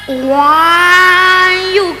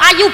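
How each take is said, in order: First: The word starts with an added w sound. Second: The word starts directly with a vowel. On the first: It means very pretty. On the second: It simply means pretty.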